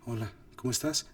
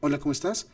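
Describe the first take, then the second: First: It is said in a breathy, whispered voice. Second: It is said in a plain, neutral voice. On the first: "Menos susurrado" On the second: "suena muy neutral"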